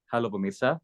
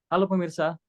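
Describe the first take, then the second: First: Greeting at a relaxed low pitch; lower register. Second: Anchor greeting pitched high. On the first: Coach shows trainee the formal tone, low register. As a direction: settle the voice down for the greeting. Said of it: "coba Mas Muslimin pakai nada bawah". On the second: Coach repeats the tone to avoid, high-pitched. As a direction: lift the whole greeting well above normal speech. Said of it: "Coba jangan pakai nada tinggi". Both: Shown as a demonstration.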